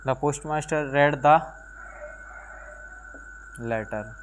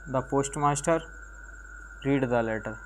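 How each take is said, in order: First: 'Read' is said with a short e vowel. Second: 'Read' is said with a long ee vowel. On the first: It is the past tense of the verb. The speaker calls it right. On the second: It is read as the present tense. The speaker calls it wrong.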